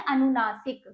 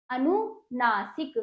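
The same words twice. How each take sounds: First: Said in the usual way. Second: अनुनासिक slowly split as अनु-ना-सिक; syllable by syllable. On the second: Shown as a demonstration. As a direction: break अनुनासिक into slow, separate syllables. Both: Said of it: "नाक और मुंह से इसका उच्चारण".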